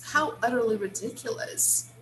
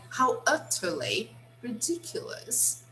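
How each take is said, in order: First: The t in utterly sounds like a soft d. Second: The t in utterly is pronounced as a crisp t.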